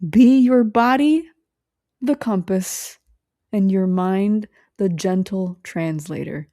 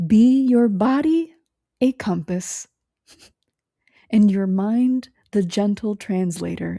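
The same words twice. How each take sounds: First: Slow, deliberate oracle-like delivery; slow solemn recitation. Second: Put-on mild mystic old woman. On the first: Shown as a demonstration. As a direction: intone it like a closing blessing. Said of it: "why I'm doing a circle". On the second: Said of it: "her voice gets real low".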